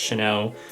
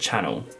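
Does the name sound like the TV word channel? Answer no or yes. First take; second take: no; yes. First: It does not sound like a TV channel. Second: It sounds just like a TV channel. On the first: The speaker calls it right. "it's renowned for being pronounced Chanel" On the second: The speaker calls it wrong. "people pronounce it Channel"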